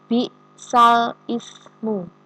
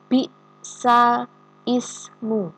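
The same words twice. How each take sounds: First: The glottal stop before ismu is clearly pronounced. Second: The glottal stop before ismu is clearly pronounced.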